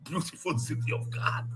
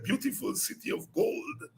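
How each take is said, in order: First: "God" said with a short vowel, soft and unvoiced; quoting God. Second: "gold" said clearly at the end, soft and unvoiced; quoting gold. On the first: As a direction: land on "God", no l sound. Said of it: "Cousin Chris Bella said". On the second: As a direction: land on "gold" with a clear final d. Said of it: "he said".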